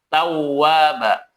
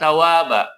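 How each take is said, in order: First: The w sound is doubled and pressed. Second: The w sound is short and single. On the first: The speaker calls it right. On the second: The speaker calls it wrong.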